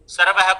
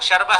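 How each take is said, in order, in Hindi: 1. शब्द 's' ध्वनि से शुरू होता है। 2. शब्द 'sh' ध्वनि से शुरू होता है।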